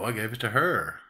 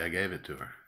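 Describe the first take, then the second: First: The stress falls on the word her. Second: The stress falls on the word gave. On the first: It was her, not someone else. "Now I'm going to emphasize her because it's a contrast" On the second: A plain statement with no contrast. "The only gave is the content word"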